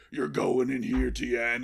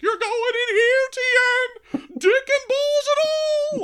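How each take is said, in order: First: Restrained menacing wrestler threat; The Undertaker. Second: Very high, shrill, loud screech; Paul Bearer. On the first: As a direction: play the ominous half of a double act. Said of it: "and he's like". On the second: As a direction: parrot it in a piercing falsetto shriek. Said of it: "repeat things in a high, shrill voice". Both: Acted.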